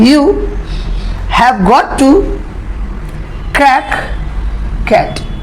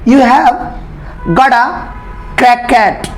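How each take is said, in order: First: 'Got' and 'to' are said as separate words. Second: 'Got' and 'to' merge into one word, 'gotta'.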